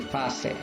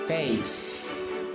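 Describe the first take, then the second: First: The final e is pronounced as a vowel. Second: The final e is silent. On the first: The speaker calls it wrong. "we will not pronounce that e at the end. We will not say" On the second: The speaker calls it right. "and then we will say"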